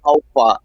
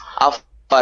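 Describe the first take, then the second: First: It is said with a standard English accent. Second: It is said with a Nigerian pidgin accent. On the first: The speaker calls it wrong. "it's not how far" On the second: The speaker calls it right. "we say it like this"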